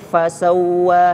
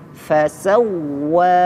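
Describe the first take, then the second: First: The vowel is drawn out long, not doubled. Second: The w is doubled and pressed, with raised pitch. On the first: The speaker calls it wrong. "tidak cukup fasawwa seperti panjang" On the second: The speaker calls it right. "Cara membacanya ditekan supaya lebih jelas tasydidnya. Suaranya dinaikkan sedikit"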